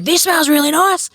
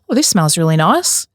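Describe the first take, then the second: First: It is said in an angry tone. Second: It is said in a calm, relaxed tone.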